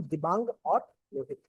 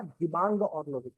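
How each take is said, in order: First: Said in the usual way. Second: Dibang और Lohit said slowly, each name spelled out clearly; slow clear repeat. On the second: Shown as a demonstration. Teacher repeats the river names slowly for students taking notes. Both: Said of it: "क्या?".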